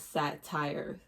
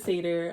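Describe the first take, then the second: First: The word sounds like 'satire'. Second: The word sounds like 'sayter'. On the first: The speaker calls it wrong. "I used to say he was a satire" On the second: The speaker calls it right. "But I know now he's a satyr"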